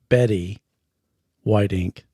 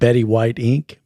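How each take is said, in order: First: It is said with a pause inside. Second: It is said smoothly without a pause.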